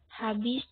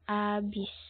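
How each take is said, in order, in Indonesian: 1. Kata ini diawali dengan bunyi h yang jelas. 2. Kata ini diawali tanpa bunyi h sama sekali. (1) "Penggunaan lafal baku dalam ragam lisan"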